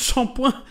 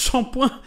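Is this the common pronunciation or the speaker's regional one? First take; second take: common; common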